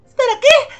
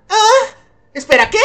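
First: High, loud rising question; astonished. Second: Puzzled, kept down in pitch; taken aback. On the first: Reacting to a sudden invitation, astonished. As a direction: squeak it up in disbelief. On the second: Reacting to a sudden invitation, taken aback. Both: Acted.

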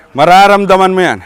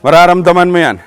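The two takes are said the same way.

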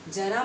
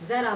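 First: जरा with a hard j, like jara; जरा as jara, meaning old age; plain j sound. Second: जरा with a buzzing z, like zara; जरा as zara, meaning a little; nukta z sound. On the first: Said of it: "जरा माने बुढ़ापा". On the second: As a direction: start जरा on a z, not j. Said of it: "जरा माने थोड़ा". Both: Shown as a demonstration.

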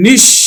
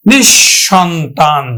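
First: নিঃসন্তান in pieces, nish, shon, tan; split palatal sh. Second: নিঃসন্তান slowly as nishshontan; joined double sh. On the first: Teacher demonstrating palatal sh, নিঃসন্তান split into nish, shon, tan. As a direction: pause between each syllable of নিঃসন্তান, sh for s. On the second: Teacher repeating for students, slow joined nishshontan in নিঃসন্তান. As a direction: stretch নিঃসন্তান but keep it one word, doubled sh. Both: Shown as a demonstration. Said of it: "তালব্য স উচ্চারণ করি".

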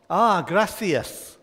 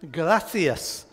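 First: Gracias said slowly and carefully as Spanish grah-see-as; slow, deliberate gracias with a rolled start. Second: Said in the usual way. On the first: Shown as a demonstration. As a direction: gracias drawn out like a language teacher. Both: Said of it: "I will attempt to pronounce it correctly".

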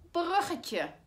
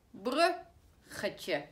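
First: Said in the usual way. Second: "Bruggetje" stretched out as brug-ge-tje, each syllable clear; teacher slowly sounding out "Bruggetje" in brug-ge-tje. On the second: Shown as a demonstration. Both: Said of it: "weer een korte klank".

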